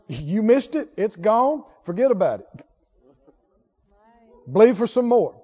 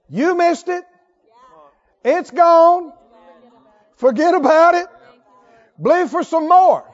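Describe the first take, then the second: First: It is said at normal speed. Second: It is said very slowly.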